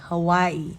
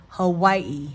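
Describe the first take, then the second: First: The middle consonant sounds like a W. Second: The middle consonant sounds like a W.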